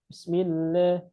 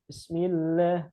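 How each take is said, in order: The two takes are said the same way.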